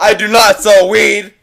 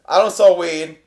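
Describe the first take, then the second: First: It is said very loudly. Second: It is said at normal volume.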